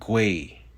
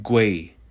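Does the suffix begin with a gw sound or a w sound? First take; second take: gw; gw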